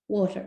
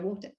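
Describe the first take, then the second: First: It is said with an American accent. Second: It is said with a British accent. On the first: "like American twinge" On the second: "instead of"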